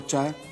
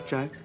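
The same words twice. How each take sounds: First: It is said in a shocked way. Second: It is said calmly and approvingly. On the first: The person is in shock. "आंख बड़ी करके बोलो अच्छा है, तो मतलब साक में है।" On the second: Everything is fine. "ऐसे मुंडी हिलाओ और बोलो अच्छा है अच्छा है। मतबर सब ठीक ठाक है"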